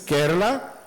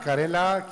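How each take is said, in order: First: The name is said in its usual form, Kerala. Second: The name sounds like the vegetable word karela. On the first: The speaker calls it right. "the thing that ties all together is Kerala" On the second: The speaker calls it wrong. "you will hear North Indians call it Karela"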